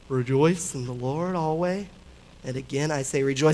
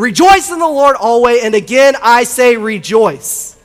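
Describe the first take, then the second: First: It is said flatly, without excitement. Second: It is said with excitement and energy.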